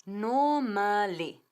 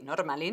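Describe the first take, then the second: First: "Normally" drawn out slowly as NO-ma-li, r silent; "Normally" very slow, syllable by syllable, NOO-ma-lee; correct three syllables. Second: "normally" wrongly said as spelled, nor-MA-li with a Spanish r; "normally" in a low, wrong Spanish reading with a tapped r; wrong pronunciation. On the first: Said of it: "Tres sílabas". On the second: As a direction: mispronounce "normally" with the r sounded, Spanish style. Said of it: "no es así, normally no". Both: Shown as a demonstration.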